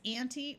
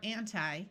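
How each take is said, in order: First: The final vowel sounds like 'ee'. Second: The final vowel sounds like 'eye'. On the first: "a long E sound" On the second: "a long I sound"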